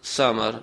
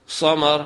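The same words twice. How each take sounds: First: ثمر said with a light, thin, hissing s like سین; light whistling s. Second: ثمر said with a heavy, velarized, hissing s like صاد; heavy whistling s. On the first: Teacher showing ثمر spelt with سین, light and hissing. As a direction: keep the s of ثمر thin and hissed. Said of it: "آواز کو باریک کریں گے سیٹی کے ساتھ". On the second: Teacher showing ثمر as if spelt with صاد, heavy and hissing. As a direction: give ثمر a heavy hissed s. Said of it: "آواز کو بھاری کریں گے سیٹی کی آواز کے ساتھ". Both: Shown as a demonstration.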